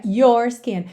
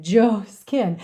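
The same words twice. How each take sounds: First: Said in the usual way. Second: "your skin" with a D-like onset, "d'your skin"; D fused into your. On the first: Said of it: "não é your skin". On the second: Shown as a demonstration. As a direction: run the D into "your". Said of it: "esse D juntando no your". ("your" soando "d'your")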